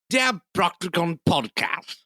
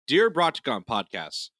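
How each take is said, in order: First: It is read in a posh British accent. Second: It is read in the speaker's ordinary accent.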